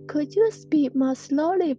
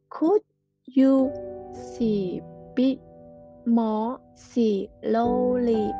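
First: The sentence is said at an ordinary speed. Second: The sentence is said slowly.

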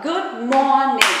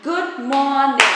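Both takes have the same delivery.

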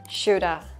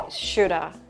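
First: The words merge, with 'have' reduced to a vowel. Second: The same.

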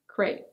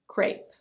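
First: The vowel sounds like the 'ay' in 'day'. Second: The vowel sounds like the 'ay' in 'day'.

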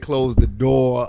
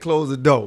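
First: The R sound in door is pronounced. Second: The R sound in door is dropped. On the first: "You don't hear close the door a lot" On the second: "you're not going to hear a lot of those hard R sounds"

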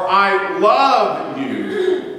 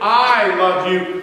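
First: The stress is on "love". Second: The stress is on "I".

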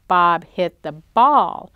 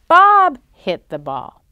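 First: The stress is on the word ball. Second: The stress is on the word Bob. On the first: It tells what Bob hit. "Did Bob hit the truck? No" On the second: It tells who hit the ball. ""Who hit the ball?""

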